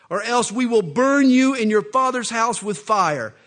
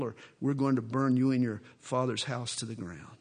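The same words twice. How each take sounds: First: Shouted threat of fire; loud threat. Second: Low, menacing retold threat. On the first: Acted. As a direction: roar it at her. Philistines threaten to burn her. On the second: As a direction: lean in and menace her. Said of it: "they threaten Samson's bride".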